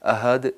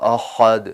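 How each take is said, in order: First: The h sound is light and plain. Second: The h sound is drawn out and stressed. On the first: The speaker calls it wrong. "अहद नहीं पढ़ना" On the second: The speaker calls it right. "मैं जानबूझ के सिखाने के लिए या उसको वाज़ेह करने के लिए खींच रहा हूँ"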